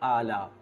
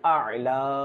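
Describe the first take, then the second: First: Both consonants are plain glottal stops. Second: The second consonant is a throaty ain. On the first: The speaker calls it wrong. "দুটাই হামজা উচ্চারণ করি" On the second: The speaker calls it right. "প্রথমটা হচ্ছে হামজা এবং দ্বিতীয়টা হচ্ছে আইন"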